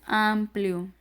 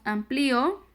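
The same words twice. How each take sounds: First: Said in the usual way. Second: "amplio" as am-pli-o, stress on the i; "amplio" split into three syllables, i stressed; accent on the i. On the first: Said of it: "Ese es un diptongo". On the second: Shown as a demonstration. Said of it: "le ponemos amplio".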